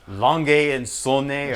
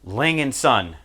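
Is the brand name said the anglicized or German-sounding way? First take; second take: German-sounding; anglicized. First: The name is said with German-sounding vowels and endings. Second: The name is said with plain English sounds. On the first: The speaker calls it right. "or something like that" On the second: The speaker calls it wrong. "which I know I'm pronouncing wrong"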